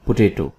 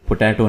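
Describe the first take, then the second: First: "पोटैटो" as puh-TAY-to; correct potato pronunciation. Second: "पोटैटो" with a short open A, po-TAT-o; mispronounced potato. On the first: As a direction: say "पोटैटो" with a long AY, not as in cat. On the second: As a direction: say "पोटैटो" wrongly, middle vowel as in cat. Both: Shown as a demonstration. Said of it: "पोटैटो नहीं है".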